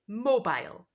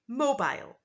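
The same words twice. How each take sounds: First: It is said in a British English accent. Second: The same.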